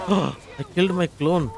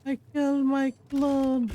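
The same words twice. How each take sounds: First: Shocked. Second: Much higher, squeaky shocked whine; high squeaky disbelief. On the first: Real, not acted. Shock at killing own clone. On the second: Acted. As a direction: squeal it in mock horror. Repeats in high put-on voice.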